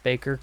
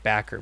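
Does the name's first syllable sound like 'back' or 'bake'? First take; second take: bake; back. First: The first vowel sounds like the one in 'bake'. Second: The first vowel sounds like the one in 'back'. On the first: The speaker calls it right. "but I guess it's Baker" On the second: The speaker calls it wrong. "I always felt inclined to pronounce it Backer"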